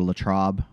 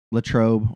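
First: Latrobe with an open "ah", rhyming with Bob; alternative pronunciation. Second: Latrobe with a long O, rhyming with robe; first pronunciation. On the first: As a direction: say Latrobe as "la-TRAHB". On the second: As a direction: say Latrobe as "la-TROHB". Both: Shown as a demonstration. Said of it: "however people say it here".

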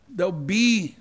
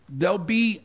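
Both takes have the same delivery.

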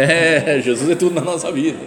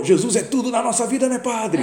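First: Laughing, humouring reply; amused agreement. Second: High, loud, eager holler; imitated shouting. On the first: Retold or imitated. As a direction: play along with a laugh. His embarrassed reply to the shouter. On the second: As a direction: mimic a zealous man yelling across the bar. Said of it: "Gritando assim".

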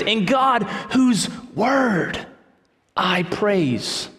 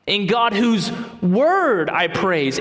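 First: Emphatic proclamation. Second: Each word of "In God whose word I praise" spaced out slowly; slow emphatic reading. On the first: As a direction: proclaim it like a preacher at full voice, then settle. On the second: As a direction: lay out the phrase word by word, unhurried. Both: Shown as a demonstration. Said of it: "but notice his emphasis".

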